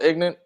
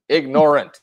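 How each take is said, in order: First: The word is said with two syllables. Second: The word is said with three syllables.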